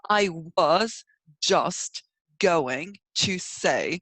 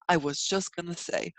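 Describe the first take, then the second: First: Each word is enunciated separately and fully. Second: The words run together smoothly in one breath. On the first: The speaker calls it wrong. "It's not like you're enunciating every part of that sentence" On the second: The speaker calls it right. "You just connected, you know, fluently and nicely into one, basically one, uh, like one breathing"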